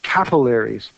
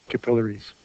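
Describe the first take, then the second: First: Capillaries with first-syllable stress, "CAP-uh-lair-eez"; rejected pronunciation. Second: Said in the usual way. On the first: Shown as a demonstration. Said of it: "would have to be spelled like this". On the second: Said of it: "stress goes on the syllable just before".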